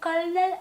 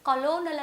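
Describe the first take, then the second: First: It is said with two syllables, like kernel. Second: It is said with three syllables, co-lo-nel. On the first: The speaker calls it right. "కర్నల్ అని మనం పలుకుతూ ఉంటాం" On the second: The speaker calls it wrong. "కలోనల్ అని మనం పలకూడదు"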